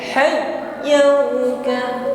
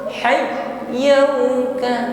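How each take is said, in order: Both takes have the same delivery.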